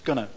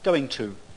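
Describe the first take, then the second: First: It is squeezed into one word, 'gonna'. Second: It is said in full as two words. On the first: "is gonna" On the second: "This happens with going to"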